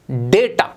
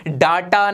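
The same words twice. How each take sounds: First: डेटा as DAY-ta, pitched low; correct pronunciation. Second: डाटा with long aa, DAA-taa; wrong pronunciation. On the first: Teacher modelling the right word, day-ta in डेटा. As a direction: say डेटा with a day sound first. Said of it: "ये होता है डेटा". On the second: Teacher rejecting the mistake, daa-taa in डाटा. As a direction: open डाटा on a drawn-out daa. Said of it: "ये डाटा नहीं होता". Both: Shown as a demonstration.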